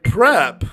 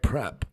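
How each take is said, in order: First: The word is said noticeably louder. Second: The word is said at a fairly soft volume.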